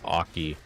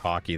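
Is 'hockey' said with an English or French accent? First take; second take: French; English. First: The word is said with a French accent. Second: The word is said with an English accent. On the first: "they say hockey" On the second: "they don't even say hockey"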